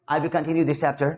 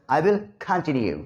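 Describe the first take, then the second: First: "continue" with a plain unaspirated Indian k; everyday continue. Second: "continue" slowly, as "khaan-tin-yu" with puffed k; corrected continue. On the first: Teacher closing the topic for students, "continue" with plain k. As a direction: say "continue" flatly Indian, no puff on k. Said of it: "कंटिन्यू नहीं बोलेंगे". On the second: Teacher correcting himself, "continue" with aspirated k. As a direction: puff the k and open the first vowel of "continue". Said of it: "कंटिन्यू". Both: Shown as a demonstration.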